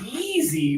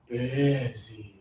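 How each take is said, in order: First: The first vowel has a higher tongue, less air. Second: The first vowel has a lower tongue, extra air. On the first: The speaker calls it wrong. "A lot of students say busy" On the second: The speaker calls it right. "lower tongue, extra air"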